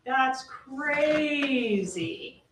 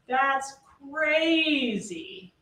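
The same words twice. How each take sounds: First: "that's crazy" stretched very slow, weight on the syllable; drawn-out that's crazy. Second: "That's crazy" very slow with "crazy" leaned on hard; emphasis on crazy. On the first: Prosecutor mimicking defendant's reply to the jury, very slow stressed words. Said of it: "I'm not adding the emphasis on that syllable". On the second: Prosecutor quoting defendant's exact words to jurors, slow heavy stress on crazy. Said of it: "He says it like that". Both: Retold or imitated.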